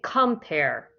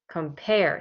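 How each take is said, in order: First: The stress is on the first syllable. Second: The stress is on the second syllable. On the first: The speaker calls it wrong. "we do not say compare" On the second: The speaker calls it right. "our voice goes up on the second part"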